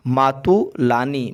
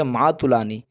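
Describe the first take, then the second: First: मातुलानी drawn out slowly in parts; slow sounding-out. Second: Said in the usual way. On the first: Shown as a demonstration. Teacher giving students the word for maternal aunt, slowly sounded out. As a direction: stretch मातुलानी carefully, syllable by syllable.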